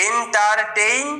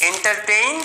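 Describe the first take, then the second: First: এন্টারটেইন slowly, rising at the end; slow demo pronunciation. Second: Said in the usual way. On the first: Shown as a demonstration. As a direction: sound out এন্টারটেইন bit by bit. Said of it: "এরকমভাবে উচ্চারণ করতে হয়". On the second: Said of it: "এই sound হয় যেহেতু".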